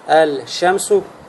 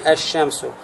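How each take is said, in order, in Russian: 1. L произносится перед звуком sh. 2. L сливается с удвоенным звуком sh. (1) "очень тяжело это произнести" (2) "Легче произнести"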